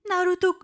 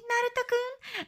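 First: Lightly deepened dub voice saying "Naruto"; huge manly voice. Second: Put-on high, soft girlish "Naruto-kun"; Hinata's cute call. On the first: Retold or imitated. One old man dubbing every voice, manly. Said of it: "huge manly voice". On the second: Hinata calling out to Naruto, high and sweet. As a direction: mimic a shy anime girl calling "Naruto-kun". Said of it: "imagine Hinata saying".

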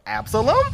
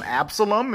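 First: Absalom? asked with a high rising question tune; questioning name. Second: Said in the usual way. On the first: Shown as a demonstration. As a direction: make Absalom? a puzzled question rising at the end. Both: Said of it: "I love the way he says it like a question".

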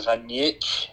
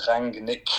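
First: "Rangnick" with the G softened away; softer G. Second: "Rangnick" with a clear hard G; pronounced as spelt. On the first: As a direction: say "Rangnick" in dialect, G barely there. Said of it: "a bit of a softer G". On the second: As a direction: sound out "Rangnick" as written, G included. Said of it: "pronounced exactly as they're spelt". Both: Shown as a demonstration.

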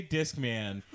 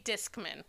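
First: Discman with a full "man" at the end. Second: Discman with a weak "mun" ending; reduced last syllable. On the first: [name] answers how he says it, Discman with full "man". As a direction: say Discman as "DISK-man", clear short a. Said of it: "I say Discman". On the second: Host tells her pronunciation to [name], Discman ending in unstressed "mun". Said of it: "I say". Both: Shown as a demonstration.

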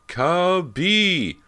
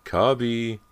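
First: Much higher, louder desperate yell; frantic shout. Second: High, loud call for a dog; frantic call. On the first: James shouts for the lost dog, higher and louder still. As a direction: scream the dog's name across the yard. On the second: James calls frantically for the missing dog, loud and high. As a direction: yell for the lost dog in a panic. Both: A narrator's reading. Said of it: "James frantically called the dog".

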